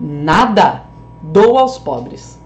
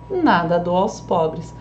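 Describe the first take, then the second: First: Low loud "Nada", pause, slow "Dou aos pobres"; split answer and declaration. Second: Slow "Nada dou aos pobres", unbroken and falling; one-phrase statement. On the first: Teacher favouring the poor, "Nada" as separate answer. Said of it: "como que vai ficar pros pobres". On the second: Teacher excluding the poor, "Nada dou" as one statement. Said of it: "Como que eu vou deixar, então, pro alfaiate". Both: Shown as a demonstration.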